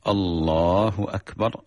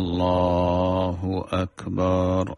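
First: The vowels are short, with no stretching. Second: The vowels are stretched out long. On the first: This is the prescribed way to say it. The speaker calls it right. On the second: The stretching can change the meaning. The speaker calls it wrong.

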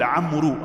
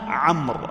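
First: The name ends with an added 'oo' vowel sound. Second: The name ends in a consonant, no final vowel. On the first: The speaker calls it wrong. "بعض الناس يقول عمرو، هذا خطأ" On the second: The speaker calls it right. "أنها عمرو"

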